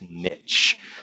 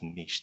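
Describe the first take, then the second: First: The word is pronounced the English way. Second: The word is pronounced the French way. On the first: The speaker calls it right. "it's niche" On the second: The speaker calls it wrong. "those of you who took took it in French pronounce it as niche. That's not right"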